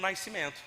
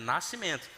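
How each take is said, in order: First: An extra 'i' sound follows the first vowel. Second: No extra 'i' sound follows the first vowel. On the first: The speaker calls it wrong. "eu falava errado" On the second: The speaker calls it right. "não tem o I aí, né? É Nascimento"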